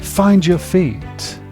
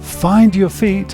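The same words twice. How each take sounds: First: The words run together with changed sounds. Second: Each word is said separately and carefully.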